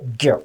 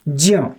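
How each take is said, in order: First: It begins with a g sound plus y. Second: It begins with a j sound plus y. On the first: "आधा ग plus य जी Y" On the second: "वैदिक दृष्टिकोण से इसका उच्चारण देखें तो ज ज प्लस इयो"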